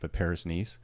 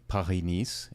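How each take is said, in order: First: It is said with an English accent. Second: It is said with a French accent.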